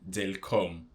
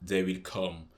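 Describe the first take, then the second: First: The first two words merge into one short syllable. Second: Every word is said fully and separately. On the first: "you can say they'll come" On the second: "Instead of saying they will come"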